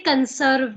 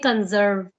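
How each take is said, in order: First: The middle consonant is a hissing s sound. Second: The middle consonant is a buzzing z sound. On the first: The speaker calls it wrong. "we don't say conserve" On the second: The speaker calls it right. "there is S, but they pronounce za ... we say conserve"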